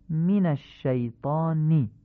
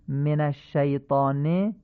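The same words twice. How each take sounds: First: من الشیطان as "min ash-shaytaani"; slowly, من with short i; الشیطان ending in a clear Arabic "i"; Arabic kasra. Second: من الشیطان with e vowels, "men ash-shaytaane"; slow demo, الشیطان ending in Persian "e"; Persian-style reading. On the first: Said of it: "کسره فصیح گفته بشن". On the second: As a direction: say من as "men", not "min". Teacher shows Persian-style reading first. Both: Shown as a demonstration.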